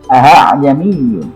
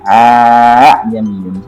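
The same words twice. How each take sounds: First: The second hamzah is softened between hamzah and ha. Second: The second hamzah becomes a long plain vowel. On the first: The speaker calls it right. "Tapi yang benar A'jamiyun" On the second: The speaker calls it wrong. "Saya dulu masih kecil bacanya A'jamiyun, sehingga ini hamzah yang kedua ini... Difungsikan sebagai alif. Ternyata itu salah"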